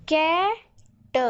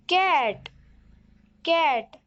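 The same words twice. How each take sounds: First: कै and ट said as two separate sounds; phonics-style कै, then a short lone ट; sounded out. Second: कै and ट joined into one word कैट; कैट blended, closing on the ट sound. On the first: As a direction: break it into कै, pause, ट. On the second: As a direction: say कैट whole, then repeat it. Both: Shown as a demonstration. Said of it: "दो भागों में पढ़ना है".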